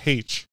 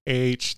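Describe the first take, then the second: First: The letter name starts with an h sound. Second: The letter name starts without an h sound. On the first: This is how the British say it. "they say H. Because it starts with an H, so why don't we pronounce the H?" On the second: This is how Americans say it. "They don't say H"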